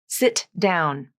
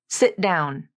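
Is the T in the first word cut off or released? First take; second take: released; cut off. First: The T in the first word is fully released. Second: The T in the first word is cut off. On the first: The speaker calls it wrong. "If I use the true T, that will break up the flow of my speech" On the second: The speaker calls it right. "linked using a stop T in the first word"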